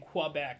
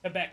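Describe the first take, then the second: First: The first syllable is drawn out and exaggerated. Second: The first syllable is short and plain. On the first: The speaker calls it wrong. "I'm putting too much sauce on qua" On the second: The speaker calls it right. "that's how she said it"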